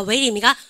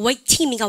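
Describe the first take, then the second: First: "웨이팅" with the t flapped, like "웨이링"; American pronunciation. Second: "웨이팅" with a clear, unvoiced t sound; British pronunciation. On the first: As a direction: roll the t of "웨이팅" into a quick tap. ("웨이팅"을 "웨이링"처럼 굴리는 미국식 발음) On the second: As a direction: keep the t crisp in "웨이팅". ("웨이팅"의 ㅌ을 또렷하게 내는 영국식 발음) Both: Shown as a demonstration. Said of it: "영국 애들은 유성만 싫어요".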